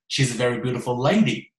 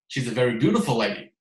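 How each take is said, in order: First: The word "lady" carries the main stress. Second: The word "beautiful" carries the main stress. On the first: She really is a woman, not a man. "最奇怪的就是……她是个lady 啊" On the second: Her beauty, rather than something else, is the point. "就已经有一点点怪了。他为什么要强调是这个"美丽"这个词呢？"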